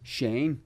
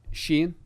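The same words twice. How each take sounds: First: Shane with a wide "ay" vowel, as Americans say it; American-style Shane. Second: Shane said with a narrow vowel, close to "Sheen"; own accent's Shane. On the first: Irish comic showing the easier way, Shane with American "ay". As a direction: say Shane to rhyme plainly with rain. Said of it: "So if I were to just say Shane". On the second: Comedian giving his name at the cafe, Shane sounding like Sheen. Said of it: "my name's S H A N E, so you would say". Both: Shown as a demonstration.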